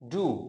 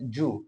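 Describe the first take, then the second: First: The word begins with a plain d sound. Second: The word begins with a j-like sound.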